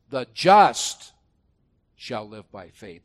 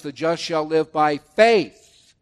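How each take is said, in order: First: "just" hit loud, rest of the verse drops away; stress on just. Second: Slow, loud, leaning into "faith" at the end; stress on faith. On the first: Preacher showing which word the verse stresses, "just" loud. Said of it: "The emphasis is on how can a man be just". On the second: Preacher showing Galatians puts weight on faith, slow. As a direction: land the weight on "faith" with a falling close. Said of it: "there the emphasis is on faith". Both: Shown as a demonstration.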